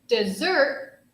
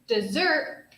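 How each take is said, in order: First: The stress is on the second syllable. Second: The same.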